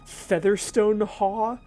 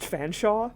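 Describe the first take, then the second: First: The name is said as spelled, with many syllables. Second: The name is said short, with two syllables. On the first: The speaker calls it wrong. "I had been mispronouncing it" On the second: The speaker calls it right. "which is actually pronounced"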